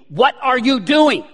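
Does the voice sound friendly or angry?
angry. It sounds stern and angry.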